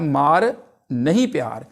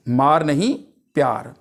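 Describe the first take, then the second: First: Slow "मार", a break, then "नहीं प्यार" together; pause after मार. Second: Group मार with नहीं, drop on प्यार; pause after नहीं. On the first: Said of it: "मार के बाद कॉमा लगाते हैं". ("मार" के बाद ठहराव, फिर "नहीं प्यार") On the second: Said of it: "नहीं के बाद लगाने से". ("मार नहीं" के बाद ठहराव, फिर "प्यार") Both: Shown as a demonstration.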